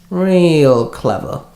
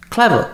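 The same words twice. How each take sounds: First: Slow sarcastic Real clever, rising at the end; drawn-out sarcasm. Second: Sarcastic, jumping up high on Clever; a quick high mocking Clever. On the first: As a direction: draw out Real clever mockingly. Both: A narrator's reading.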